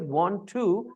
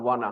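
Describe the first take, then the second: First: Both words are said fully and separately. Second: The words run together as one short word. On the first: It is the formal way to say it. "the word is want to" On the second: It is the casual way to say it. "they have changed it into wanna"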